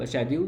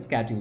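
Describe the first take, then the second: First: It starts with a 'sh' sound, British style. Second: It starts with a 'sk' sound, American style.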